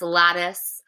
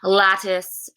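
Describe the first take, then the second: First: The middle T is a soft, voiced tap. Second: The middle T is a crisp, unvoiced T.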